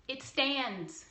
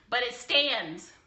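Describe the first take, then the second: First: Said in the usual way. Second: Slow, with stands leaned on hard; emphatic stress. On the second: Shown as a demonstration. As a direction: drag out "stands" slowly for weight. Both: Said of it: "stands repeated".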